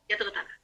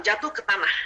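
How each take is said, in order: First: "Jatuh ke tanah" said again much softer; softly repeated. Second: Said in the usual way. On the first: Shown as a demonstration. Teacher echoing her own words softly to the audience. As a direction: let "Jatuh ke tanah" sink into a soft echo.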